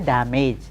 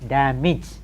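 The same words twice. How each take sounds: First: The final syllable sounds like 'age'. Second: The final syllable sounds like 'ij'. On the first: The speaker calls it wrong. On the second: The speaker calls it right.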